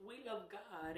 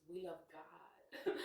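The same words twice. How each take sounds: First: Laughing repeat. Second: Said in the usual way. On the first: Acted. Repeating to viewers that she loves God, laughing. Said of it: "repeats with laugh". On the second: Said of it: "declares faith".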